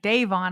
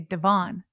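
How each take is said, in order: First: The first syllable sounds like the word 'day'. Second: The first syllable does not sound like 'day'. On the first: This is how someone else says it. "You're saying like day as in it's day or night" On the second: This is how the speaker would say it. "I would say Devon"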